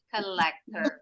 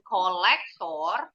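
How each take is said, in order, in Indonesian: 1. Kata ini berakhir dengan bunyi 'er'. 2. Kata ini berakhir dengan bunyi 'or'. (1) "Akhiran O R bunyinya er di belakang" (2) "nggak pernah bunyi or. Bukan kolektor"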